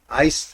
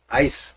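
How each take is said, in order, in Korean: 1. 모음은 영어의 'ice'처럼 들립니다. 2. 모음은 영어의 'ice'처럼 들립니다.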